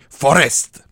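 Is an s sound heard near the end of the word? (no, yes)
yes. An s sound is heard near the end. "devient forest"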